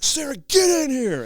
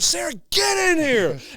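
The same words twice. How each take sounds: First: It is said calmly, without anger. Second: It is said with more anger. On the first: The speaker calls it wrong. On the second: The speaker calls it right.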